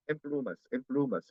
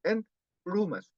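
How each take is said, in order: First: "en plumas" run together as "emplumas"; no gap in "en plumas", N becomes M; everyday linked speech. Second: "en plumas" broken after "en"; with a pause. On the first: Teacher demonstrating everyday speech, "en plumas" as one word. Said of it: "o habla rápida". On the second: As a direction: stop on a clear N in "en", then "plumas". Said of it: "cuando hay pausa". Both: Shown as a demonstration.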